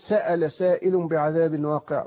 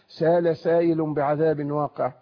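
First: The first word has a glottal stop. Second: The first word has no glottal stop. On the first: "هذا يهمز" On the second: "وهذا لا يهمز"

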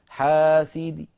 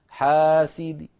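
The two takes are said the same way.

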